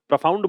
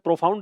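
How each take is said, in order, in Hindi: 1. पहले अक्षर में कमज़ोर 'uh' स्वर है। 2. पहले अक्षर में पूरा 'o' स्वर है। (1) "प्रोफाउंड बोलते हैं, ओ की मात्रा नहीं आती" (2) "प्रोफाउंड नहीं होता"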